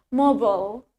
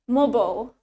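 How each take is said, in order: First: It is said in an American accent. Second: The same.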